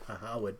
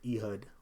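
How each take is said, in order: First: The name is said as 'Ahawad'. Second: The name is said plainly as 'Ehud'. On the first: The speaker calls it right. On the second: The speaker calls it wrong.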